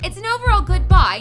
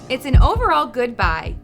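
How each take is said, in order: First: It is read in a put-on, different accent. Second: It is read in a plain, ordinary accent.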